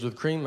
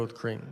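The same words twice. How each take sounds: First: Checking the order back with a rising tone; puzzled echo, voiced as the barista; questioning barista. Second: Low, soft answer, settling the question; confirming reply. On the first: Barista repeats an order back to the customer, questioning. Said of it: "She goes". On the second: Retold or imitated. Customer answers the barista's question, low confirming reply. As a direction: drop it down as a patient confirmation. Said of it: "I go".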